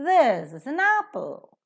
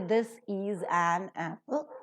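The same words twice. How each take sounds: First: 'Is' and 'an' are reduced, 'this' and 'apple' stressed. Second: Every word is said in its full form. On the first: The speaker calls it right. "is and an with their respective weak forms" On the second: The speaker calls it wrong. "you don't say this is an apple"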